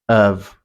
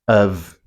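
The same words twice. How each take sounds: Both takes have the same delivery.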